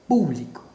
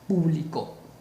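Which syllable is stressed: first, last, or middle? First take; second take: first; last. First: The stress is on the first syllable. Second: The stress is on the last syllable. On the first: "mayor fuerza de voz en pu" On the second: "si le colocamos acento en la última sílaba"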